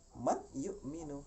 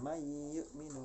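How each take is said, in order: First: The n is pronounced clearly before the y. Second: The n merges fully into the following y. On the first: The speaker calls it wrong. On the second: The speaker calls it right.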